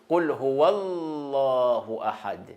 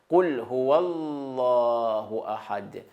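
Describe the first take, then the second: Both takes have the same delivery.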